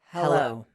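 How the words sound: It is said low and falling on the out-breath. The speaker sounds competent. The speaker calls it right. "say hello on the out breath ... in a downward inflection"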